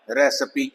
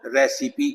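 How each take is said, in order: First: American रेसिपी with a schwa in the middle, re-suh-pee; American pronunciation. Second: British रेसिपी with a clear i in the middle, re-si-pee; British pronunciation. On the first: Teacher shows the American way to say रेसिपी. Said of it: "American में बोलेंगे तो आई श्वा sound आएगी". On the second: Teacher shows the British way to say रेसिपी. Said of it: "British में बोलेंगे तो". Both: Shown as a demonstration.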